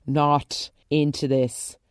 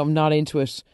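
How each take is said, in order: First: "Not into this" slowed, each word weighted; slow emphatic repeat. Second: Said in the usual way. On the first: Real, not acted. Firmly rejecting Susie's scheme, slow emphatic repeat. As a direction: lean on "Not", drawing it out.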